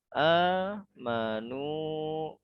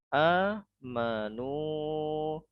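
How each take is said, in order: No difference in how they are said.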